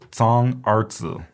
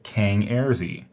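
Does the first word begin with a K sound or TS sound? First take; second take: TS sound; K sound. First: The first word begins with a TS sound. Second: The first word begins with a hard K sound. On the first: The speaker calls it right. "remember the C sound is pronounced with a TS" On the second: The speaker calls it wrong. "Please do not say Kang Erzi"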